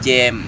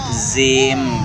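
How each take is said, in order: First: It begins with j and has an a vowel. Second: The word begins with a z sound. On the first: "jangan jam jam, nah, itu salah ya" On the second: "banyak ya anak-anak mengucapkannya"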